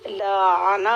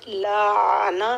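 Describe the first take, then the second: Both takes have the same delivery.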